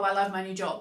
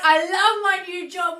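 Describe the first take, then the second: First: It is said flatly, without much feeling. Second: It is said excitedly, with strong feeling. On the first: The speaker calls it wrong. "but you don't say it like that" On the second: The speaker calls it right. "You say it like this. ... you really feel it"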